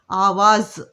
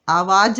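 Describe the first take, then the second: First: आवाज़ ending in a clear z; nukta z sound. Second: आवाज़ ending in a hard j, the wrong way; wrong j sound. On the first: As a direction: end आवाज़ with z. (आवाज़ के अंत में ज़ की आवाज़) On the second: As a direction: end आवाज़ with j to show the mistake. (आवाज़ के अंत में ज, गलत) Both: Shown as a demonstration. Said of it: "आवाज़ नहीं बोलते".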